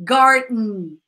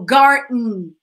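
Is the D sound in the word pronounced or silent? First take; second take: silent; silent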